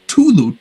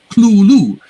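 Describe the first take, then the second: First: The word begins with a plain t sound. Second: The word begins with a cl sound. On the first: "another story he renders as Tulu, T U L U" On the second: "he spells it out as C L O O L O O"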